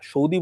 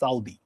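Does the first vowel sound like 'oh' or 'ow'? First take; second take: oh; ow. First: The first vowel sounds like 'oh'. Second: The first vowel sounds like 'ow'. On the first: The speaker calls it wrong. "সৌদি বলা হয়" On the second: The speaker calls it right. "Actually এটা উচ্চারণ সাউদি"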